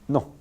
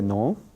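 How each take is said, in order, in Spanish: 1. La vocal es corta, tensa y estable. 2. La vocal es larga y se desliza como en inglés. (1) "siempre es no. Muy corto, breve, con tensión" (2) "Nunca se dice no"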